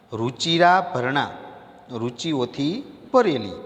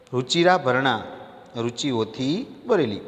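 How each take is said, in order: Both takes have the same delivery.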